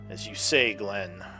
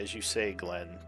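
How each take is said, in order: First: The voice sounds angry. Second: The voice sounds calm, not angry.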